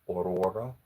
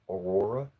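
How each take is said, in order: No difference in how they are said.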